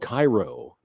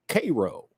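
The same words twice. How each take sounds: First: The name is said as its spelling suggests. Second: The name is said in the local way. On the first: This is the familiar form of the name. The speaker calls it wrong. "It's spelled Cairo" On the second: This is how the town's people say it. The speaker calls it right. "but they pronounce it Cairo"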